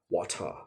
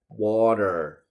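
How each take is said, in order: First: It is said in a British accent. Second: It is said in an American accent.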